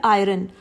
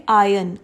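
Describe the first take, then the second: First: "आयरन" with the r sounded, "eye-ron"; "आयरन" said "eye-run" with a clear r; common iron. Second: "आयन" as "eye-un", the r dropped; iron with silent r. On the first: Teacher imitates the usual "आयरन" with r. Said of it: "हम आयरन नहीं बोलेंगे". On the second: Teacher shows "iron" said without r. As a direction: say "आयन" with no r sound. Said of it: "R is silent here". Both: Shown as a demonstration.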